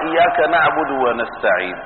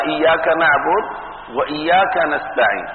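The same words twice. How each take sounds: First: Said in the usual way. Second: وإياك stressed again on its own, not dropped; اضغط على وإياك المكررة; stress on repeated إياك. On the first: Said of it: "ما قال". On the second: Shown as a demonstration. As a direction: lean on the second وإياك so the repeated pronoun is heard. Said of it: "فقال".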